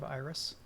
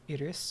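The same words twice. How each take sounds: First: The name is said in the American way. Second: The name is said in a Greek-like way. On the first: "I'm just used to the Americanized version" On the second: "Got some fantasy pronunciation going on here. ... maybe that's the actual Greek pronunciation"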